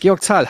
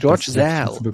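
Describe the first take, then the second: First: The name is said with a German pronunciation. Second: The name is said with an English pronunciation. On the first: "Zahl, ja, genau" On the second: "im Englischen würde man das Saal aussprechen"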